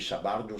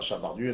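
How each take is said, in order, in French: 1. Le nom se termine par une voyelle 'oh'. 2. Le nom se termine par une voyelle 'oo'. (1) "on dit Sabardo" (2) "d'abord on ne dit pas Sabardu"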